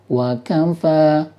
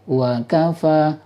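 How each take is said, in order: First: The pitch wavers slightly between wa and kafa. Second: The pitch wavers slightly between wa and kafa.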